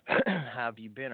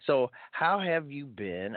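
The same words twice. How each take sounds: First: Said in the usual way. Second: Slow, high Scottish lilt; Scottish accent. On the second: Pretend. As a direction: put on a playful Scottish accent. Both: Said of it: "I'm gonna use my Scottish accent".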